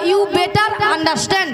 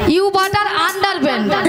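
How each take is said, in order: First: It sounds like 'better understand'. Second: It sounds like 'butter under pant'. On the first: The speaker calls it right. "বলো you বেটার আন্ডারস্ট্যান্ড" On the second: The speaker calls it wrong. "এটা ইংরেজি নমুনা"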